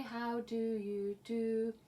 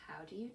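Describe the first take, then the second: First: Said in the usual way. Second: Soft whispered repeat. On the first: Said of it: "and say". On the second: Shown as a demonstration. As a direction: breathe it in a hush.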